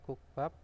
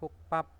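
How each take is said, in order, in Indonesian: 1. Konsonan kedua itu polos, dibaca sesuai tulisan. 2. Konsonan kedua itu tegang. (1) "tulisannya kukbab" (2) "menjadi kukpap"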